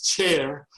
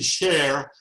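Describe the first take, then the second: First: The syllable is pronounced the Spanish way. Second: The syllable is pronounced the French way. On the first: "If it's uh, Spanish, it's Chair" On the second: "If it were French, it would be Cher"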